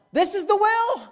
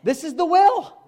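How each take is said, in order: First: Much higher, ringing insistence; higher emphatic repeat. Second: High, loud insistence; emphatic declaration. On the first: Preacher repeating to congregation, ringing higher insistence. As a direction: push it up even higher. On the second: Preacher insisting to congregation, loud high declaration. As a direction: drive it home. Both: Real, not acted.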